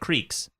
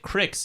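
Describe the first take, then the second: First: It is said in a standard American pronunciation. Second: It is said in a Utah local pronunciation. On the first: "instead of" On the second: "I grew up uh, calling it cricks"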